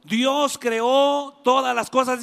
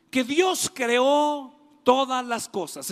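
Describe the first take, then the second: First: Louder, slow, stress on todas; preacher repeating the key line, louder and slower; emphatic restatement. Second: Said in the usual way. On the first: Shown as a demonstration. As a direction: hammer home the truth.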